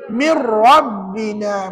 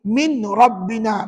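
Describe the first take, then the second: First: The n merges fully into the following r. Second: The n is clearly pronounced before the r. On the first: The speaker calls it right. "Yang betul macam mana? ... Maknanya nun mati tu jangan baca" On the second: The speaker calls it wrong. "Kalau puan-puan tak bubuh Sabtu pada ra, nanti puan-puan akan baca begini"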